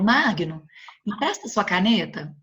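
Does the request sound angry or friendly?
friendly. The request sounds calm and friendly.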